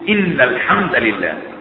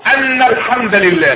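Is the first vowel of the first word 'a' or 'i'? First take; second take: i; a. First: The first word begins with an 'i' vowel. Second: The first word begins with an 'a' vowel. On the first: The speaker calls it right. "ان بتكسر في اول الكلام في الاستئناف" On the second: The speaker calls it wrong. "لا ينفعش، هذا لحن في اللغة"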